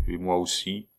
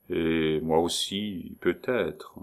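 First: Said in the usual way. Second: Slow, pointedly odd echo; strange tone. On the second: A narrator's reading. Doctor echoing his patient's words, in a strange tone. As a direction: draw out the echo with hidden meaning. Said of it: "fit le docteur d'un accent étrange".

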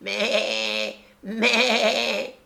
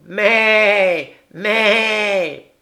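First: High quavering goat bleat; shaky vibrating voice. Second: High, louder quavering bleat; loud goat bleat. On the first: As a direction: bleat like a timid kid goat. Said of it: "se mit à bêler d'une voix chevrotante". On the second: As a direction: bleat harder, calling the lion. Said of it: "il bêla plus fort". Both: Acted.

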